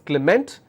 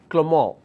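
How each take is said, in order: First: The name is said the usual English way. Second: The name is said the French way. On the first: This is how it is said around the world. "All over the world, we pronounce this as Clement" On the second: This is how French speakers say it. "in French, in France, or countries that speaks French, they pronounce this as Clement"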